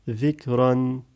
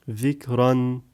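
The two takes are said the same way.

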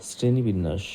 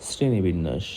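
No difference in how they are said.

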